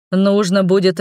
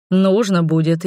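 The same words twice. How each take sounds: First: "будет" leaned on, "нужно" light; this time hit "будет"; stress on будет. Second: "нужно" leaned on, "будет" light; stress on нужно. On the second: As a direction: push the word "нужно" first. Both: A narrator's reading. Vow repeated with shifting stress.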